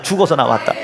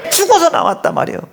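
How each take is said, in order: First: Said in the usual way. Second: Emphatic preaching. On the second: Acted.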